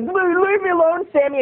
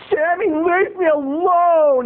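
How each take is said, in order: First: Put-on high, stammered kid's plea; imitated friend's protest. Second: Put-on high, drawn-out kid's complaint; mock whiny protest. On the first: Narrator's friend fends off the camp bully, high stammering protest. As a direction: imitate a flustered boy begging off. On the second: Pestered boy tells off the camp bully, drawn-out whine. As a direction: imitate a pestered boy, stretching it slowly. Kid pleading with bully, retold.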